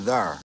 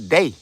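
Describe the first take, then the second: First: It is said with a Midwest accent. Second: It is said with a South Carolina accent.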